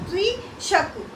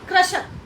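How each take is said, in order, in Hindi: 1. पहला अक्षर 'kri' की तरह बोला जाता है। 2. पहला अक्षर 'kra' की तरह बोला जाता है। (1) "री है, तो इसको बोला जाएगा कृषक" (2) "बहुत सारे लोग बोलते हैं कृषक, क्र नहीं है ये"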